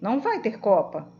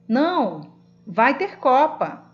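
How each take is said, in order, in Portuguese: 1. Continua sem pausa depois de 'não'. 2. Há uma pausa depois de 'não'. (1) "No primeiro" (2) "No segundo"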